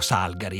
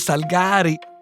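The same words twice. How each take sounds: First: The stress is on the first syllable. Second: The stress is on the second syllable. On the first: This is how the speaker's generation said it. The speaker calls it wrong. "noi dicevamo Salgari" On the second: This is the correct pronunciation. The speaker calls it right. "la pronuncia corretta è Salgari"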